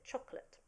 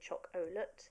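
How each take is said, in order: First: The middle vowel is unstressed and reduced. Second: The middle vowel is pronounced fully and clearly. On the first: The speaker calls it right. "it's an unstressed, so chocolate" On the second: The speaker calls it wrong. "We don't say chocolate"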